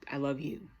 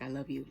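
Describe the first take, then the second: First: It is said with intense passion. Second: It is said simply and warmly.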